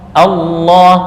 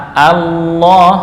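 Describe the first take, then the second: The two takes are said the same way.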